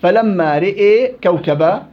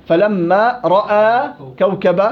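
First: Slow recitation of رئي with ee; Shu'ba reading. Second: Slow recitation of رأى with open a; Hafs reading. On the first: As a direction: recite فلما رئي كوكب slowly. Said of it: "شعبة". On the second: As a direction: recite فلما رأى كوكب slowly, open vowel. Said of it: "حفص". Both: Shown as a demonstration.

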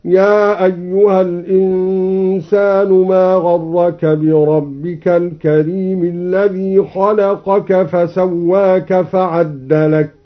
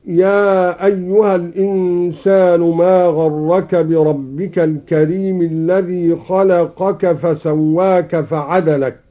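First: Slow recitation with the دال of فعدلك doubled; slow recited demo. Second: Said in the usual way. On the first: Shown as a demonstration. Teacher demonstrating the Douri reading, slow recitation. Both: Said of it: "هكذا".

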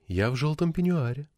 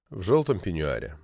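First: Softly coaxing on ПЕНЬЮАРЕ, voice held up; lightly voiced wife, softly inviting him home; a soft phone invitation. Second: Low, soft echo falling away on ПЕНЬЮАРЕ; understated low narrator's afterthought; wry echo. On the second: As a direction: let the phrase sink quietly to a close. Narrator wryly echoes wife's words. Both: A narrator's reading.

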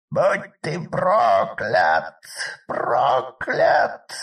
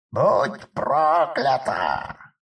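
First: Shrieking witch curse, slow and loud; trapped animal. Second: Slow shrieking curse; dying scream. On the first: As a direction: scream the curse like a cornered beast. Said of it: "визжала запертая в ловушке колдунья". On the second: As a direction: scream your last curse. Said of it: "стало последним криком Евдохи". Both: Acted.

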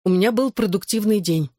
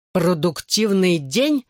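First: Said in the usual way. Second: Mocking. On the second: A narrator's reading. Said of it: "передразнил он".

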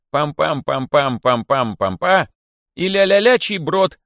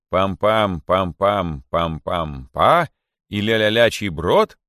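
First: High, loud, drawn-out chant; sung, herald's song. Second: Chanted, quote the song back as an interrogating king; grim mocking chant. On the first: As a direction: sing out the nonsense syllables boldly. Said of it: "поёт такую песню". (sung, звонко нараспев, как глашатай) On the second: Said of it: "мрачно обратился к нему король". (chanted, мрачно передразнивая напев) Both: A narrator's reading.

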